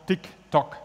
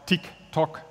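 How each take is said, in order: The two takes are said the same way.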